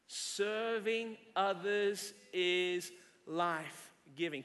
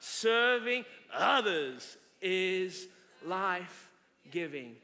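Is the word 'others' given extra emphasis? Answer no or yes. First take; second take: no; yes. First: The word 'others' gets no special emphasis. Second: The word 'others' is said with strong emphasis.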